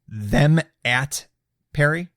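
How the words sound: The m sound ends the first word. The name is misread. The speaker calls it wrong. "I thought it was"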